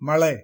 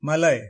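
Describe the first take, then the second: First: The l is a curled-back retroflex l. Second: The l is a plain tongue-tip l. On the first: The speaker calls it wrong. "தவறு" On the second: The speaker calls it right. "சரி"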